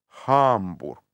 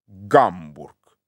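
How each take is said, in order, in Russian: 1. Название начинается с мягкого придыхательного звука Х. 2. Название начинается с твёрдого звука Г. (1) "Оно и звучит помягче" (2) "твердо так произносится"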